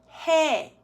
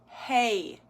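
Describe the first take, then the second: First: The vowel stays steady to the end. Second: The vowel glides upward at the end. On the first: The speaker calls it right. "if you're pronouncing it correctly without the swing" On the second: The speaker calls it wrong. "There's a little, little up and down movement"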